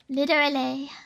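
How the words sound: It is said in an American accent with a D. "they always say with a D"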